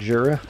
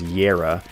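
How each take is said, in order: First: The word begins with a J sound. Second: The word begins with a Y sound. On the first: The speaker calls it right. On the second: The speaker calls it wrong.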